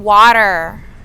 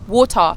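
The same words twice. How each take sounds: First: It is said in an American accent. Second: It is said in a British accent. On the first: This is how locals need to hear it. "you have to say" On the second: This is how the speaker naturally says it. "I said"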